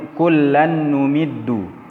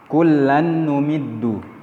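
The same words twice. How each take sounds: The two takes are said the same way.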